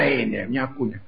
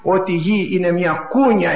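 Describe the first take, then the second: First: Soft echo. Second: Said in the usual way. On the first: Shown as a demonstration. Preacher repeating that the earth is a cradle, softly echoed. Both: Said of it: "επαναλαμβάνω".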